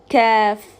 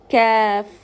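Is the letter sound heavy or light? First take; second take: light; light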